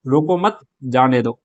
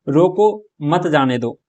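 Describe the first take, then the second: First: Slow रोको मत, a break, then जाने दो; pause after मत. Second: Slow रोको, a break, then मत जाने दो as one phrase; pause after रोको. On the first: Teacher demonstrating how punctuation changes meaning, pause after मत. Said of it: "मत के बाद में विराम चिन्ह लगाते हैं". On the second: Teacher demonstrating how punctuation changes meaning, pause after रोको. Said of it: "रोको के just बाद में विराम चिन्ह". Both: Shown as a demonstration.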